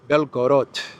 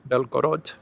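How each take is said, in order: First: It is said with a Russian-style accent. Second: It is said with an American accent.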